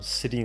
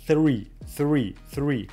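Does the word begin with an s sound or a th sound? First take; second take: s; th. First: It begins with a plain s sound. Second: It begins with the tongue between the teeth. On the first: The speaker calls it wrong. "насколько неестественно звучит" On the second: The speaker calls it right. "язык между зубами"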